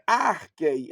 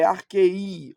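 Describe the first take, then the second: First: "arquei" stressed on the first syllable, AR-quei; "arquei" with a front-loaded accent; wrong stress. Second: "arquei" stressed on the end, ar-QUEI; "arquei" leaning on a drawn-out last syllable; corrected stress. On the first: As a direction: hit "ar" in "arquei", let "quei" fall away. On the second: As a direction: slowly lengthen the final "ei" of "arquei". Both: Shown as a demonstration. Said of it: "Aqui é a sílaba tônica".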